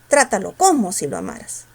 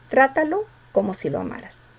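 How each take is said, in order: First: The word como is said with strong stress. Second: The word como is said without stress. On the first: The speaker calls it wrong. "pronúncialo eh, con fuerza" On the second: The speaker calls it right. "sin fuerza"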